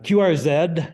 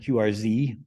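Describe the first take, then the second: First: The last letter is said the non-American way. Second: The last letter is said the American way.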